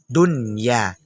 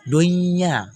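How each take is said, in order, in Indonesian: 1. Bunyi n diucapkan dengan jelas sebelum y. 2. Bunyi n menyatu secara sengau dengan y setelahnya. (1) "Yang betul dunya" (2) "Jangan nanti dibaca kayak baca idgham, salah. Dunya, salah"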